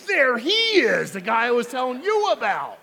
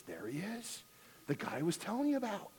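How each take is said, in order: First: Hammed-up wife sneering at the TV pastor; wife loudly mocking the husband's praise; wife's scornful echo. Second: Softer, pleased murmur of recognition; husband whispering to wife about the TV guy; man's pleased remark. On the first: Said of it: "his wife standing next to him says". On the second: Retold or imitated. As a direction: point him out quietly to his wife. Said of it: "He says".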